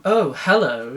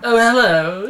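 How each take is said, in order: First: Said in the usual way. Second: High, loud, pleasantly surprised hello; different, aroused tone. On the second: A narrator's reading. Man touched in the shower, suggestively surprised. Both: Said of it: "this time in a different tone".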